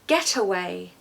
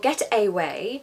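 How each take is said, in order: First: The middle vowel is a schwa. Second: The middle vowel is a full vowel. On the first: The speaker calls it right. "I'm saying geta" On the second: The speaker calls it wrong. "I'm not saying get away"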